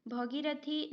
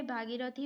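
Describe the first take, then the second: First: "भगीरथी" with short first a, bha-gi-ra-thi; wrong form bhagirathi. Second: "भागीरथी" with long first a, bhaa-gi-ra-thi; correct form bhaagirathi. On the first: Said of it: "भगीरथी नहीं होता है". ("भगीरथी" में भ छोटा बोलें) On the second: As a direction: stretch the first vowel of "भागीरथी". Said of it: "भागीरथी होगा". ("भागीरथी" में भा लंबा बोलें) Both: Shown as a demonstration.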